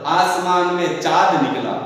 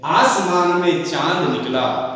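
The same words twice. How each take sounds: First: चाँद said as oral "chaad" within the sentence; wrong, denasalized चाँद. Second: Slow sentence with चाँद nasalized as "chaand"; correct nasal चाँद. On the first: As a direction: say चाँद with no nasal sound, as "chaad". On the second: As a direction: say it slowly, sending चाँद through the nose. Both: Shown as a demonstration. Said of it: "ये सही नहीं है".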